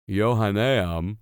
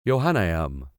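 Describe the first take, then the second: First: Johanneum sounded out slowly, yo-HAH-ne-um; careful pronunciation. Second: Johanneum said as yo-han-EYE-um, low and falling; settled pronunciation. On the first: Reader working out the school name, slow. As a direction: stretch each syllable of Johanneum. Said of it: "just so everybody knows, it's J O H A N N A". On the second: Reader settling on the name, final take. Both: Shown as a demonstration.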